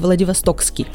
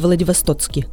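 First: The word has a 'ks' sound before the ending. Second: The word has a 'ts' sound before the ending. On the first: The speaker calls it right. "Владивостокский, без буквы «Ц»" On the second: The speaker calls it wrong. "без буквы «Ц»"

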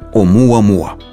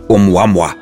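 First: The u is said as a full vowel. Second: The u is said like a w consonant. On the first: The speaker calls it right. "как это слово произносят носители гавайского языка" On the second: The speaker calls it wrong. "буква «У» в этом слове – это обозначение согласной, краткое «У»"

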